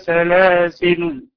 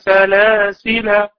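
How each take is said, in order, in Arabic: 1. تنتهي الكلمة بلام ساكنة لا حركة عليها. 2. تنتهي الكلمة بمد طويل بالألف. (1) "إلى الوقف عليها بسكون اللام" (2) "من أثبتوا الألف عند القراءة"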